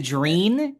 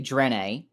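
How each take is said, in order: First: The vowel sounds like 'ee' in 'see'. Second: The vowel sounds like 'ay' in 'day'. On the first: The speaker calls it wrong. "Some people say Dreen, and I don't like that" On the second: The speaker calls it right. "I would say Drane"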